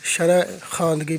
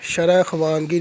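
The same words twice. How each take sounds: First: ख्वांदगी said as khaandgi, the v silent; शरह ख्वांदगी read khaandgi; correct pronunciation. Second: ख्वांदगी said as khuwaandgi, the v sounded; शरह ख्वांदगी with the v voiced, the wrong way; wrong pronunciation. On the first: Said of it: "शरह ख्वांदगी पढ़ेंगे". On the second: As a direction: sound the v in ख्वांदगी: khu-waand-gi. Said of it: "शरह ख्वांदगी नहीं पढ़ेंगे". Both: Shown as a demonstration.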